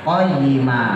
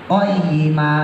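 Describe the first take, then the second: Both takes have the same delivery.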